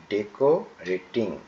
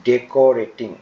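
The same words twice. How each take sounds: First: ডেকোরেটিং slowed and split as deko-reting; teacher sounding out ডেকোরেটিং; syllable by syllable. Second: Said in the usual way. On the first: Shown as a demonstration. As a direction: break ডেকোরেটিং into slower parts. Teacher repeats word in parts.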